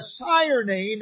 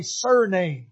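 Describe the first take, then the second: First: SIRE NAME with a long "sigh-er"; contrasted word, sire name. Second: SURNAME with "sur" as in "sir"; SURNAME set against sire name; contrasted word, surname. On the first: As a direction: stress SIRE in SIRE NAME, rhyming with "fire". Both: Shown as a demonstration. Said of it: "a sire name is not a surname".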